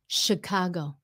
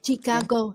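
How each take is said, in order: First: It begins with a sh sound. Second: It begins with a ch sound. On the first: The speaker calls it right. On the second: The speaker calls it wrong. "cái kêu là chi"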